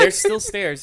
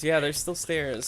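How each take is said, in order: First: THERE'S said high and loud; emphatic. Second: Said in the usual way. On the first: Shown as a demonstration. GM insists to the player the stairs remain, emphatic. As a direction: land hard on "There's", voice up high.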